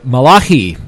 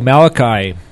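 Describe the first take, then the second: First: The name is pronounced the Hebrew way. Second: The name is pronounced the usual English way.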